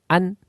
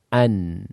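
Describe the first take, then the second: First: The final n sound is held back abruptly. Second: The final n sound continues and flows. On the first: The speaker calls it wrong. "tertahan. ... Jadi tidak ada suara yang mengalir" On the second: The speaker calls it right. "Ada suara"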